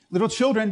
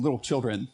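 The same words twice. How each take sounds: First: Put-on "Little children" said high and loud, children falling; stress on children. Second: Said in the usual way. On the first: Shown as a demonstration. Pastor quoting Jesus calling to tired fishermen, raised and ringing. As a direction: lift "Little children," and let children drop. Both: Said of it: "But it says".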